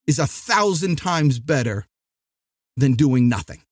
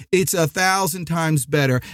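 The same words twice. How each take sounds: First: Long dramatic pause before the punchline, then drop low. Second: Said in the usual way. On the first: Shown as a demonstration. Podcaster pausing for effect before doing nothing. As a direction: hold the beat, then land it low and heavy. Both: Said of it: "That was a dramatic pause there".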